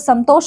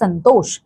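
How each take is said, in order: First: It is said with a full m sound. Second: It is said with a nasal sound instead. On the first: The speaker calls it wrong. "संतोष हम नहीं बोलते" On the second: The speaker calls it right. "हम बोलते हैं संतोष"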